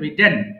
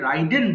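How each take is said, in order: First: The first vowel sounds like 'ih'. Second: The first vowel sounds like 'eye'. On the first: The speaker calls it right. "সঠিক উচ্চারণ হবে রিডেন" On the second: The speaker calls it wrong. "এটা অনেকে ভুল করে রাইডেন বলে"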